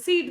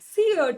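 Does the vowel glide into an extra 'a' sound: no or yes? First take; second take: no; yes. First: The vowel is one plain long 'ee' sound. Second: The vowel glides into a short 'a' sound. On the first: This is how it is said today. "ಒಟ್ಟಿಗೆ ಉಚ್ಚಾರ ಮಾಡಿ ಮಾಡಿ" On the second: This is how it was said long ago. "ಅ ಕೂಡ ಉಚ್ಚಾರ ಬರ್ತಿತ್ತು ಮುಂಚೆ"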